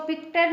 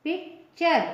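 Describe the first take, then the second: First: पिक्टर with a hard "t" starting the second syllable; wrong hard T. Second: पिक्चर with a "ch" sound in the second syllable; T read as CH. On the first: Teacher warning learners off a misreading, पिक्टर with hard "t". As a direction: say पिक्टर as "pik-tar", no "ch". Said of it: "इसको पिक्टर नहीं पढ़ेंगे". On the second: Teacher showing the rule for T before URE, पिक्चर with "ch". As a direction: say पिक्चर in two parts, "pik-chur". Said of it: "इसको पिक्टर नहीं पढ़ेंगे, च पढ़ेंगे". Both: Shown as a demonstration.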